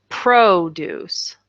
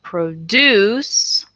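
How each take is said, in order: First: "produce" as PRO-duce, stressed on the front syllable, slow; slow, clear PRO-duce; noun stress. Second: "produce" as pro-DUCE, stressed on the back syllable, very slow; slow, clear pro-DUCE; verb stress. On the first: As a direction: lean on the first syllable. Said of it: "that's the noun". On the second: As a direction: drag it out, stressing the end. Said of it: "that's the verb". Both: Shown as a demonstration.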